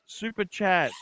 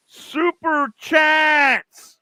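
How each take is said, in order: First: Said in the usual way. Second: Super chats stretched slow, high and loud; drawn-out begging call. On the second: Real, not acted. Host pleading with viewers for super chats, slow loud call. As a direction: beg for the money, slowly.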